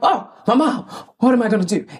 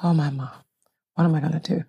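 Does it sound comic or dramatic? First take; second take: comic; dramatic. First: It is said with comic rhythm, as a joke. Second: It is said slowly, as grieving drama.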